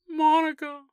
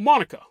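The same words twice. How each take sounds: First: The name is called in a desperate, pleading way. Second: The name is called in a casual, relaxed way.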